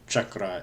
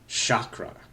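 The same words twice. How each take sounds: First: It starts with a ch sound and a rolled R. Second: It starts with a sh sound and a plain R. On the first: This is the original way of saying it. The speaker calls it right. "Chakra is how you really say it" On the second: This is the common American way of saying it. The speaker calls it wrong. "in America, most people say chakra, which isn't even chakra"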